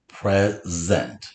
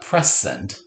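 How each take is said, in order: First: The middle consonant is a buzzing z sound. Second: The middle consonant is a hissing s sound. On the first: The speaker calls it right. "we need that z" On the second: The speaker calls it wrong. "It's not"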